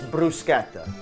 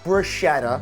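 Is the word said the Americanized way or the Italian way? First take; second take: Italian; Americanized. First: It is said the Italian way. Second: It is said the Americanized way. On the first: The speaker calls it right. "know how to say it correctly" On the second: The speaker calls it wrong. "not ... this is not a casting for the Olive Garden commercials"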